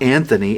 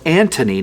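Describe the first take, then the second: First: The middle consonant is a th sound. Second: The middle consonant is a plain t sound. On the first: The speaker calls it wrong. "not Anthony" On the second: The speaker calls it right. "it's Antony"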